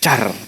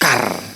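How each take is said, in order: First: The word begins with a ch sound. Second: The word begins with a k sound. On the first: The speaker calls it wrong. "bacanya itu bukan car" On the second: The speaker calls it right. "Bacanya itu kar"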